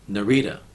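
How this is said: The name is said in an American way. "we pronounce it Narita. We, Americans, pronounce it Narita"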